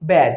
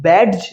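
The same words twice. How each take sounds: First: ব্যাজ with the D silent; correct pronunciation. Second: ব্যাডজ with an audible D before j; wrong pronunciation. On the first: Teacher recaps the right form, no D in ব্যাজ. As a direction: say ব্যাজ with only a j ending. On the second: Teacher recaps what not to say, D voiced in ব্যাডজ. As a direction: sound the D in ব্যাডজ. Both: Shown as a demonstration. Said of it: "ব্যাডজ নয়".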